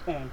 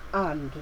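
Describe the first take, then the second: First: The word is said in a short, weak form. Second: The word is said in its full, strong form. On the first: This is how it sounds in connected speech. "this becomes and" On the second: This is the word said on its own. "instead of and"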